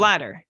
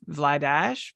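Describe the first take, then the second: First: The name is said the anglicized way. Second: The name is said the Czech way. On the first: This is the pronunciation the guide gives. "It's Vladar. that's how I'm reading the pronunciation" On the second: This is how it is said in his home country. "back home it, it's Vladash"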